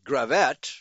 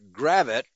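First: The stress is on the second syllable. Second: The stress is on the first syllable. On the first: The speaker calls it wrong. "I've always been pronouncing it" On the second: The speaker calls it right. "the locals pronounce it Gravette with the accent on the first syllable"

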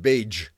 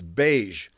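First: The word ends in a 'j' sound, as in judge. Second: The word ends in a soft 'zh' sound. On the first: The speaker calls it wrong. "It's not beige" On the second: The speaker calls it right. "the ZH. It's like in the English word beige"

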